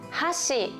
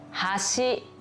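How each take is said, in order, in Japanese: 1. 最初の音節にアクセントがあります。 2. 2番目の音節にアクセントがあります。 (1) "最初にアクセントを入れると" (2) "後ろにアクセントが入ると"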